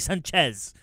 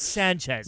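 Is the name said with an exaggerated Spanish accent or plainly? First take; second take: exaggerated; plain. First: The name has an exaggerated Spanish pronunciation. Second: The name has a plain, unexaggerated pronunciation. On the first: The pronunciation is overdone and unnecessary. The speaker calls it wrong. "I don't say Sanchez" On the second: This is the everyday pronunciation. The speaker calls it right. "it's Sanchez"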